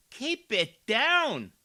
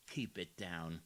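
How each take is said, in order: First: Loud, high, slow mock scolding. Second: Lower, softer hushed take; mock hush. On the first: Commentator mocking the councilwoman as a schoolteacher, loud and slow. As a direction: boom it like a stern schoolteacher. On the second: Commentator quietly mocking the councilwoman's hush. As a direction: drop to a mocking murmur. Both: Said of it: "you talk a little lower".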